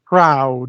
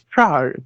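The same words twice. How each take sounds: First: It is said in an ordinary everyday accent. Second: It is said in an overly enunciated posh accent. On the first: "It's not proud" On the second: "this really overly enunciated, like Queen's English"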